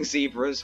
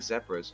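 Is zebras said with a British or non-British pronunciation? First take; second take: non-British; British. First: It is said with a non-British pronunciation. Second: It is said with a British pronunciation. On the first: The speaker calls it wrong. "I don't even know why I'm saying zebras when I'm British" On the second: The speaker calls it right. "I should be saying zebras"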